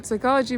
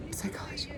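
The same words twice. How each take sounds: First: Said in the usual way. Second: Breathy whisper of a single word; whispered psychology. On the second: Real, not acted. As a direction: drop to a whisper on it. Word whispered then repeated aloud.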